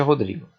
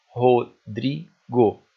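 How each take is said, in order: First: Said in the usual way. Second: Very slow, louder, each syllable of Rodrigo separate. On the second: Shown as a demonstration. Teacher counting syllables up to the stressed one, syllable by syllable. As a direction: split Rodrigo into Ro, dri, go with pauses. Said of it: "até o dri do Rodrigo".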